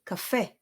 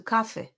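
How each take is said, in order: First: "cafe" with the FE stressed; ca-FE, land on the end of "cafe"; stress on second syllable. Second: "cafe" stressed on CA; CA-fe, punch the first syllable of "cafe". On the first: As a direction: say "cafe" with weight on its last syllable. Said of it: "It goes on the second syllable". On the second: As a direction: say "cafe" with weight up front. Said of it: "as opposed to cafe". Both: Shown as a demonstration.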